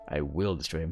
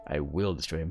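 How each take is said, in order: First: The stress falls on the word will. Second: The stress falls on the word will.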